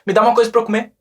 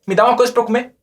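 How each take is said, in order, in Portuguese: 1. As palavras são contraídas e ditas juntas. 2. As palavras são contraídas e ditas juntas.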